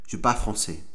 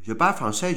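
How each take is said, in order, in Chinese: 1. 这是标准的法国法语口音。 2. 这是魁北克法语口音。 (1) "如果我讲法文就是我会讲法文……然后法文是这样子的" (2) "然后魁北克人讲说"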